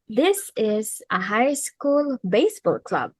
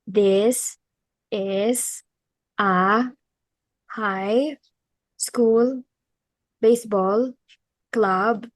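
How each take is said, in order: First: It is spoken at a steady, measured pace. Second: It is spoken so slowly that it drags. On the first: The speaker calls it right. "this is the right way to do it" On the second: The speaker calls it wrong. "when you speak so slowly that the audience get bored. Like this"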